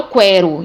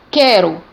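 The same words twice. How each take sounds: First: QUERO wrongly said "kwe-ro"; U sounded in QUERO. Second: QUERO said "ke-ro", k with no w; silent U in QUERO. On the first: Teacher showing what is not said, QUERO mispronounced with kw. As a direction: pronounce the U in QUERO as a w glide. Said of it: "eu não falo quero". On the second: Teacher introducing the example word, QUERO with silent U. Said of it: "então o U não é pronunciado". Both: Shown as a demonstration.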